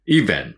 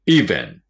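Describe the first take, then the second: First: "event" with the first syllable stressed. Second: "event" louder, first syllable punched; stress on first syllable. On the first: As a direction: hit the start of "event". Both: Shown as a demonstration. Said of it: "最初にアクセントがあります".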